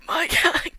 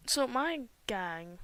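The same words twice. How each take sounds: First: Loud higher excited shout. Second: Said in the usual way. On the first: Real, not acted. Gamer proudly shows viewers her team, excited shout. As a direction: proudly show off your crew.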